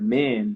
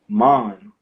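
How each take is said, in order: First: The vowel is open and flat, sounding like 'man'. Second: The vowel is rounded, sounding like 'mon'. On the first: "like man" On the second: "like how uh, a Jamaican man does Mon"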